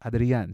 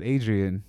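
First: Adrian said the Spanish way, open a's and a tapped r. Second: Adrian said the English way, AY-dree-an; anglicized Adrian with a hard American r. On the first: Friend imitating how Mila says his name, Spanish pronunciation. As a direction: Adrian as ah-dree-AHN with a flicked r. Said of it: "She doesn't say Adrian". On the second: Recalling introducing himself to Mila, anglicized name. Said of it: "how you introduced yourself". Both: Retold or imitated.

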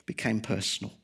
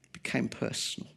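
First: Said in the usual way. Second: Whispered repeat. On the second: Shown as a demonstration. Preacher echoing his point to the church in a whisper. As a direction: whisper the words, letting them linger.

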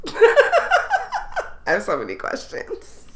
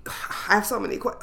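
First: Slow words broken by giggles, pitch up; can't get it out for laughing; dragged-out giggling question; laughing through it. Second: Said in the usual way. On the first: Real, not acted. Laughing at the odd topic.

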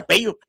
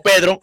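First: "Pello", with a y sound replacing the dr of Pedro; childhood mispronunciation. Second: Said in the usual way. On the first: Retold or imitated. Man retelling how he said his name at four, childhood mispronunciation. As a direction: say "Pello" as a child who can't pronounce the R in Pedro. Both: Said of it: "no podía pronunciar la R".

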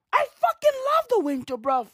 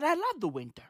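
First: Higher and faster, bursting out; excited declaration. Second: Softer, almost to himself; quiet admission. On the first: Scene: telling viewers he loves winter, higher, fast and excited. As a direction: blurt it out with glee. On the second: Scene: admitting to viewers he loves winter, softly. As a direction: confess it under the breath. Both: Real, not acted.

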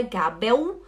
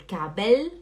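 First: Gabel as "ga-beu", rising; wrong final L. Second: Gabel ending on a clear L; tongue tip up to close Gabel; correct final L. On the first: Teacher listing what it is not, L as U. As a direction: end Gabel in a U glide. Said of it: "e não U". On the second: Teacher giving students the right form, clear L. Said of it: "é Gabel". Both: Shown as a demonstration.

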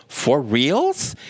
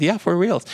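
First: "For reals?" with reals rising like a doubtful question; incredulous upward tune on "reals"; questioning rise. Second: "Yeah, for reals." with reals falling, settled; assured falling tune on "reals"; confirming fall. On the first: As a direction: ask "reals" with an upturn, in disbelief. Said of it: "she goes". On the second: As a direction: land "reals" firmly downward as an answer. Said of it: "I said". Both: Retold or imitated.

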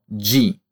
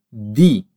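First: "di" mispronounced as "djee"; wrong softened D. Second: "di" with a pure D, "dee"; hard Italian D. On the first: Teacher shows what to avoid, softened D. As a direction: show the mistaken "di" with a j sound. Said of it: "e não di". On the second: Teacher shows D and I together, hard D. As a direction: say "di" crisply, no j sound. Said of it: "se pronunciam di". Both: Shown as a demonstration.

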